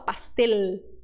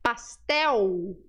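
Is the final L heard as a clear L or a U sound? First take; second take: clear L; U sound. First: The final L sounds like a clear L. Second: The final L sounds like a U. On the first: The speaker calls it wrong. "A gente não fala" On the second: The speaker calls it right. "ele tran- se transforma no som de U"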